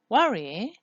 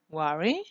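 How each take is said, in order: First: The pitch falls then rises. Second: The pitch rises at the end.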